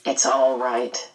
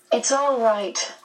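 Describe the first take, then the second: First: Low, slow reassurance; boy speaking low and unhurried. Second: Mildly earnest, higher and slow; a touch of girlish earnestness; earnest assurance. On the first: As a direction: drop the pitch and take it slowly. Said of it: "Calvin said in a low voice". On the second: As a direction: reassure her slowly in a raised pitch. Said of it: "Meg assured the medium earnestly". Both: A narrator's reading.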